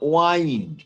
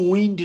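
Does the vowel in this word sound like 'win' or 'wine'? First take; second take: wine; win. First: The vowel is long, like in 'wine'. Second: The vowel is short, like in 'win'. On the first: The speaker calls it right. "এখানে ওয়াইন্ড" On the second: The speaker calls it wrong. "উচ্চারণটা কিন্তু উইন্ড নয়"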